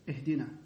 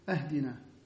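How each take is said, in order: First: The word begins with an 'i' vowel. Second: The word begins with an 'a' vowel. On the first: The speaker calls it right. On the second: The speaker calls it wrong.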